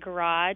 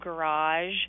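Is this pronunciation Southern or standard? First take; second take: Southern; standard. First: It is said with a Southern pronunciation. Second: It is said with a standard pronunciation. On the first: The speaker calls it wrong. "I used to say garage" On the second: The speaker calls it right. "instead of garage"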